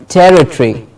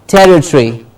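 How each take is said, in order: No difference in how they are said.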